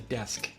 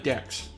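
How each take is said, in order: First: The S sound comes before the K sound. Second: The K sound comes before the S sound. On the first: The speaker calls it right. "The S comes before the K" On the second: The speaker calls it wrong. "It's not a dex"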